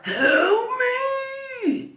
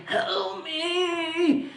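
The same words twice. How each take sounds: First: High, strained cry of help me, not a scream; strained call for help. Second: Higher, softer, strained call, held calm; calm strained plea. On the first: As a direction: imitate a weak man straining to call out. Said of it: "It wasn't, like, a scream". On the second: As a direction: imitate a hurt man calling help me calmly but strained. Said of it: "literally very calm and, like, strained". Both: Retold or imitated.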